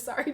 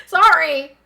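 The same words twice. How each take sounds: First: Said in the usual way. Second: Sudden loud, higher SORRY; excited loud apology. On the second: Real, not acted. Streamer apologizes for hurting viewer's ears, loud excited SORRY. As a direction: blurt out SORRY, loud and raised. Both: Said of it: "got a little bit excited".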